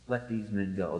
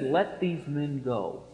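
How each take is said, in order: First: Low, soft, settled command; low quiet authority. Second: Slow, softer calm authority; quiet authority. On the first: Preacher voicing Jesus, low soft authority. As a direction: speak it low with calm power. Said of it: "with that authority". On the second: Preacher voicing Jesus commanding soldiers, soft slow authority. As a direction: say it slowly with quiet total authority. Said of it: "with the same infinite authority in his voice". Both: Retold or imitated.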